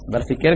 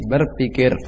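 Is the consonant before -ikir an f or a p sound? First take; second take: f; p. First: It is said with an f sound. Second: It is said with a p sound. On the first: "Fa itu mengalir fa. Maka tidak berubah" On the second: "Sudah mulai berubah sebagian"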